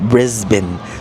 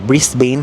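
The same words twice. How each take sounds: First: It is said with the local pronunciation. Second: It is said with a non-local pronunciation. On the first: The speaker calls it right. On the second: The speaker calls it wrong.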